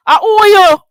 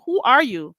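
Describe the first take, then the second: First: Loud, high mocking shout; high mock shout of who are you; mocking yell. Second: Said in the usual way. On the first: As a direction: yell it back in her face. Mocking retort repeated louder.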